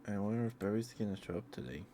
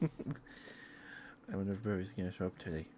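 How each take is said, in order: First: Said in the usual way. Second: Said through a chuckle; laughing. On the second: Real, not acted. Streamer repeating her musing to chat, now laughing. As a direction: let a laugh carry the line.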